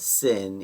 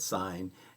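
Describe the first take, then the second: First: The vowel is short, rhyming with 'win'. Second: The vowel is long, rhyming with 'line'. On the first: The speaker calls it wrong. "we don't say that as sin" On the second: The speaker calls it right. "we still pronounce it as sine"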